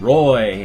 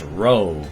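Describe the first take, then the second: First: The name has the vowel of boy. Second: The name has the vowel of go. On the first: The speaker calls it wrong. "I get Rue and Roy" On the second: The speaker calls it right. "It's Roe"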